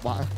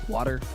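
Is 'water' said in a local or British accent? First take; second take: British; local. First: It is said in a British accent. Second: It is said with a D-like middle sound.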